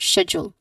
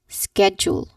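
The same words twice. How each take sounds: First: It is said with a British pronunciation. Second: It is said with an American pronunciation. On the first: "This is a British English pronunciation for this word" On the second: "The U S counterpart is schedule"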